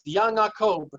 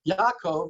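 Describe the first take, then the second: First: It ends with b, with an ng sound inside. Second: It ends with v, with no ng sound inside.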